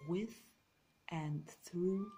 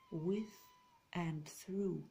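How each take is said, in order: Both takes have the same delivery.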